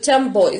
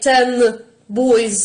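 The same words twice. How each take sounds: First: The first word ends with an m sound. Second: The first word ends with an n sound. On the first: "when we speak fast" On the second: "in isolation"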